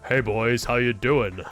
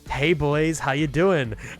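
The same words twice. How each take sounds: First: It is said in a deep, manly voice. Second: It is said in a high, feminine voice. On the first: The voice changer is off. "And then you turn off the voice changer" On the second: The voice changer is on. "someone with like a really like feminine voice"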